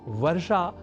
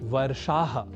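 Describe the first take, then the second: First: The word ends on a plain vowel. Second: The word ends with a breathy h. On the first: The speaker calls it wrong. "वर्षा नहीं" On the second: The speaker calls it right. "वर्षाः ही प्रयोग की अवस्था में लिखा और बोला जाना चाहिए"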